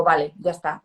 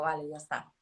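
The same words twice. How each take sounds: First: "Vale, ya está" said louder and decisively; a resolute, clear "Vale, ya está"; firm settling. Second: Soft resigned "Vale, ya está", trailing off; a hushed, letting-go "Vale, ya está"; quiet settling. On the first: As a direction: close the matter firmly with "Vale, ya está". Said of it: "Y digo". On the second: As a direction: let "Vale, ya está" drop quietly, almost to yourself. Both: Retold or imitated.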